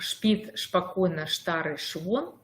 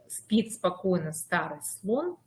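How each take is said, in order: First: The s sounds are replaced by sh sounds. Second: The s sounds are said as clear s. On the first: The speaker calls it wrong. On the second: The speaker calls it right.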